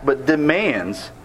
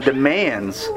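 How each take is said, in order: First: Demands slowed way down and weighted; stress on demands. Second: Said in the usual way. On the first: Shown as a demonstration. Preacher insists Moses demands, not asks: slow emphatic demands. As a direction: lean hard on demands, slowly. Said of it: "not asks, but demands". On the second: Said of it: "not asks".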